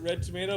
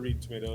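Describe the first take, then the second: First: The first word has a short vowel, like 'red'. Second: The first word has a long vowel, like 'reed'. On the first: This is how the owners say the name. "we do pronounce it red tomato" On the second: This is how others often say the name. "a lot of times you hear reed tomato as well"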